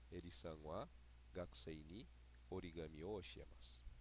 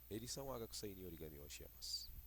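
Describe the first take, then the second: First: It is spoken slowly with pauses between words. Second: It is spoken quickly with a smooth, fluid rhythm. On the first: "tão pausadamente igual eu estou fazendo aqui na aula" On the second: "de forma mais natural ... um ritmo mais fluido"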